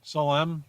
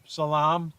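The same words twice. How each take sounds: First: Salem said suh-LEM; wrong pronunciation. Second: Salam said suh-LAHM; wrong pronunciation. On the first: Playing with the town's name, Salem as suh-LEM. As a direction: stress the second syllable of Salem, suh-LEM. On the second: Playing with the town's name, Salam as suh-LAHM. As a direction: Salam with a long AH, stressed at the end. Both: Real, not acted. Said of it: "Let's just pronounce everything wrong".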